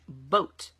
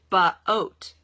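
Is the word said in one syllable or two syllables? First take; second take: one syllable; two syllables. First: The word is said as one smooth syllable. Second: The word is split into two syllables. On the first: The speaker calls it right. "I say boat" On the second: The speaker calls it wrong. "I don't say ba-oat"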